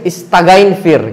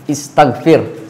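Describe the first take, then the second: First: An extra 'ain' syllable sits before 'fir'. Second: A plain g sound leads straight into 'fir'. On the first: The speaker calls it wrong. "Hindi siya ganun" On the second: The speaker calls it right. "ang tunog niya sa isang salita, g"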